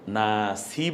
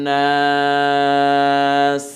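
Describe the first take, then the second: First: The word ends with a short vowel. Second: The word ends on a bare consonant. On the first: The speaker calls it wrong. "নাসি বলবো না" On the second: The speaker calls it right. "বরং আমরা বলবো অন্নাস"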